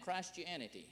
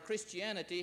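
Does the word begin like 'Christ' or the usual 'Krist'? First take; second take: Christ; usual. First: The first part sounds like the word Christ. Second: The first part is said the usual short way. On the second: "he didn't say it like that"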